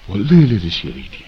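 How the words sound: It is said in a humble, regretful tone. The writer regrets being unable to express it. The speaker calls it right. "这个态度完全不一样啊"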